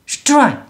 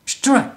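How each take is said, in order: Both takes have the same delivery.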